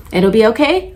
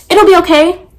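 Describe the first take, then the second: First: Said in the usual way. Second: High, loud brush-off; dismissive client. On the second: Retold or imitated. Client brushing off the nail tech's warning, high dismissive reassurance. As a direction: wave the warning away, pitched up loudly. Quoting client who won't hear it.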